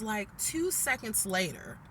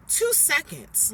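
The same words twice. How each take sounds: First: Said in the usual way. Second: "two seconds" drawn out slowly, "two" hit louder and higher; stress on two. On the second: Shown as a demonstration. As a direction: stretch "two seconds" and lean hard on "two".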